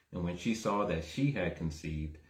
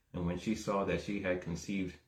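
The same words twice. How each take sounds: No difference in how they are said.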